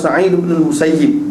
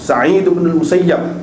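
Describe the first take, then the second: First: The surname ends with an 'ib' sound. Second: The surname ends with an 'ab' sound. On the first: "boleh kedua" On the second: "boleh kedua"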